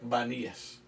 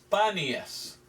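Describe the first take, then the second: First: The name begins with a B sound. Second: The name begins with a P sound. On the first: This form came from speakers who could not say P. "no pudieron pronunciar la P" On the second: This is the original form of the name. "en realidad es"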